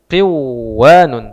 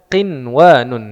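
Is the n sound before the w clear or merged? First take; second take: merged; clear. First: The n is dropped, merging into the w. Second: The n is pronounced clearly before the w. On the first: The speaker calls it wrong. "Semestinya secara kaidah nun sukun bertemu waw maka dibaca qiwanun" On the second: The speaker calls it right. "tapi ini dibaca qinwanun"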